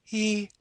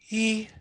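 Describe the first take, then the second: First: The vowel is voiced with lots of audible air. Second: The same.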